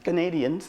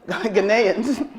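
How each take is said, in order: First: A d sound comes before the ending. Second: No d sound comes before the ending. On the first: The speaker calls it wrong. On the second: The speaker calls it right.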